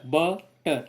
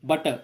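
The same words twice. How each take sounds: First: बटर broken slowly as ब, टर; split into two syllables. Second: Said in the usual way. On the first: Shown as a demonstration. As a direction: say बटर in two separate drawn-out beats. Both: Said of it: "इसको दो बार बोलना पड़ता है".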